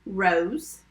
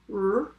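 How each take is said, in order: First: Said in the usual way. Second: "R-O-S" as separate sounds, the last one held; sounded out. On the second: Shown as a demonstration. Teacher tapping rose for spellers, sounded out. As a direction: stretch out each sound of "R-O-S". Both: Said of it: "Tap rose".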